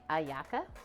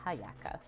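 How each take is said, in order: First: The word begins with a vowel, no h. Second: The word begins with an audible h sound. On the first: The speaker calls it right. "the H is silent, so it's more like ayaka" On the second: The speaker calls it wrong. "than hayaka"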